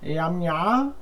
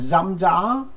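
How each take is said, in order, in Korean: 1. 단어가 y 같은 소리로 시작해요. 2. 단어가 z 같은 소리로 시작해요.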